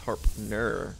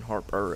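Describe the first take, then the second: First: It is said with an n before the end. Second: It is said without an n before the end. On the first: The speaker calls it right. "it's Harpner" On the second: The speaker calls it wrong. "I've been saying Harper"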